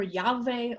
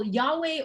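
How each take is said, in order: First: Yahweh said YAH-vay, slowly; v pronunciation. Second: Yahweh said YAH-way, slowly; w pronunciation. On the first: Teacher comparing sounds of the name, slow Yahweh with a V. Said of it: "more commonly is pronounced Va". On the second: Teacher comparing sounds of the name, slow Yahweh with a W. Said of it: "can be pronounced Wa". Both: Shown as a demonstration.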